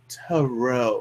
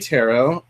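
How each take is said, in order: First: The word is said in a posh, haughty way. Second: The word is said in a plain, casual way. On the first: The sayer acts as if they were royalty. "like they were some sort of royalty" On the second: This is the speaker's own everyday way of saying it. "I say tarot"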